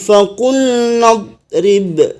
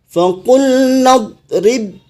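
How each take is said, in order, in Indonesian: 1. Berhenti setelah "idrib" dengan b terakhir yang dipantulkan. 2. Berlanjut dengan b terakhir yang tidak dipantulkan. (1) "ketika wakaf dipantul, dipantulkan ba-nya" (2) "ketika disambung, maka ba-nya tidak memantul lagi"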